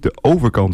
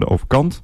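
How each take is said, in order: First: The stress falls on the syllable 'over'. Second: The stress falls on the syllable 'kant'. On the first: "En niet de overkant" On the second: "Vaak hoor ik dan ook de klemtoon op kant"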